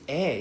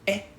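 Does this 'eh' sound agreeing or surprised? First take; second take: agreeing; surprised. First: It sounds like a calm, agreeing reply. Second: It sounds like a shocked, surprised reaction. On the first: The speaker is saying yes. "this eh is like yeah" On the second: The speaker is shocked by what was said. "the eh is a shock right remember eh is like huh"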